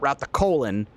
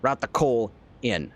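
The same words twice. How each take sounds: First: The words run together without clear separation. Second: Each word is clearly and carefully separated. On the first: It sounds like a different, embarrassing phrase. The speaker calls it wrong. "not route the coal in" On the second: It means moving the coal in. The speaker calls it right. "make sure I'm very clear and enunciate"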